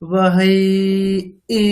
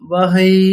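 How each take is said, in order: First: The final vowel is held long, then the tune follows separately. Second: The final vowel is short and runs into the tune. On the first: The speaker calls it right. "এরকম" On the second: The speaker calls it wrong. "এরকম না"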